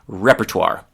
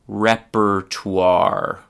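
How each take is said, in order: First: The word is said faster. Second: The word is said slowly. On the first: "a little bit faster now" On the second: "I'll just say it slowly"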